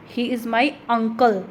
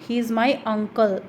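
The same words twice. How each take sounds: The two takes are said the same way.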